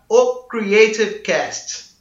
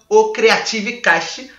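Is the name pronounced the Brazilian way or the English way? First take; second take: English; Brazilian. First: The name is pronounced with English-style sounds. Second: The name is pronounced with Brazilian Portuguese sounds. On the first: "com essa pronúncia bem bacana" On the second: "para você que é mais abrasileirado"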